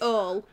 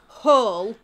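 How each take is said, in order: First: The word begins with no H sound. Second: The word begins with a clear H sound.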